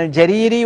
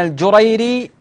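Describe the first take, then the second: First: الجريري said al-Jariri, with a then long i; fatha on the jim. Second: الجريري said al-Jurayri, with u and ay; damma on the jim. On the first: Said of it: "يقول بفتح الجيم". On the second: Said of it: "بضم أوله أو بضم الجيم". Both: Shown as a demonstration.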